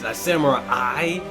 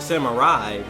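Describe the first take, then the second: First: The word is pronounced in an unusual way. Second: The word is pronounced in the familiar way. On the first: This is how the trailers say it. "they pronounce it so weird" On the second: This is how the speaker expected it to be said. "I thought it was a samurai"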